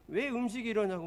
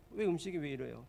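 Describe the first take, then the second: First: Raised, louder demand about the food; angry complaint. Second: Said in the usual way. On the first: Retold or imitated. Young pastor complaining to restaurant owner, angry and loud. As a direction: snap at the owner, higher and louder. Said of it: "잔뜩 화가 나가지고". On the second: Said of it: "막 불평을 한 거죠".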